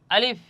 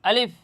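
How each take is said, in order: The two takes are said the same way.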